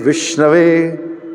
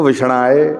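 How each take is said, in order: First: The word ends in the sound 'ave'. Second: The word ends in the sound 'aye'. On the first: A learned person says it. The speaker calls it right. "अच्छा pronunciation है" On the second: An unschooled person says it. The speaker calls it wrong. "प्रोनाउंसिएशन कितना गलत है"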